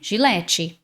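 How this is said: It is said with Brazilian Portuguese pronunciation. The speaker calls it wrong. "Muitos brasileiros falam Gillette"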